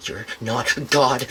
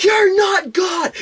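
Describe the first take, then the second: First: Slow, low retelling of her words; imitated unstable stranger. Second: High, slow, drawn-out mock shout; imitated yelling. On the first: Retelling a stranger's words from the bus, slow and understated. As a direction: say it slowly and low, as if quoting her. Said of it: "she's like, she's like". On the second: Imitating a woman ranting at bus passengers, high-pitched yelling. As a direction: screech it like a ranting stranger. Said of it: "she'd just break into yelling".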